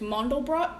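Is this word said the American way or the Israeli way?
Israeli. The word is said with an Israeli pronunciation. "What they say in Israel, I believe, is Mandelbrot"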